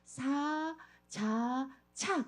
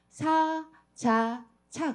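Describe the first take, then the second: First: The syllables are said slowly and separately. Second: The syllables are said at normal speed.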